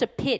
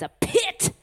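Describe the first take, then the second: First: The word is said in a plain accent. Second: The word is drawled in a Southern Texas accent. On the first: It is an ordinary hole. "It's not just a pit" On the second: It is a very deep, dire low point. "Write Southern accent. Southern Texas accent"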